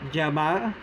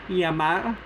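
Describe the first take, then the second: First: The consonant sounds like English j. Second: The consonant sounds like English y. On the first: "The J-like sound" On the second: "The Y-like or the letter I-like sound"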